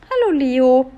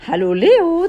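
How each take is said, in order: First: Mildly taunting raised greeting; mocking. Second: High, louder elf greeting; chirping. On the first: Freed prince waves at sniffling Leo, mocking. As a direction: tease with a higher-voiced hello. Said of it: "spöttisch winkte er". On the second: Elf greets Leo from above, chirping. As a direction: chirp it out in a raised voice. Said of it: "zwitscherte Rosalinde". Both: A narrator's reading.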